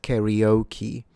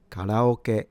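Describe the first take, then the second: First: Karaoke anglicised as carry-OH-key; English mispronunciation. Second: Karaoke with ka low, then ra-o-ke held high; Japanese pitch pattern. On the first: Teacher warning how it's not pronounced, English-style mispronunciation. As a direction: say karaoke the English way, kair-ee-OH-kee. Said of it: "it's not pronounced". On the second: Teacher showing the pitch for learners, Japanese low-to-high pronunciation. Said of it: "this is a low to high". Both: Shown as a demonstration.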